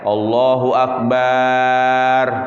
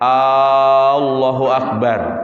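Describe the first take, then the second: First: The bar syllable at the end is lengthened. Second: The opening A sound is lengthened. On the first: It changes the meaning to asking whether God is a drum. "Tidak boleh barnya" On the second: It becomes a question asking whether God is great. "Tidak boleh hamzahnya"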